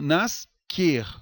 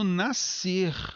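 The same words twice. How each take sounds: First: The s and c are pronounced as separate sounds. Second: The s and c merge into one s sound. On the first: The speaker calls it wrong. "eu não falo nascer, como eu falo a palavra asco" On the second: The speaker calls it right. "Eu falo nascer... apenas o som, o fonema S"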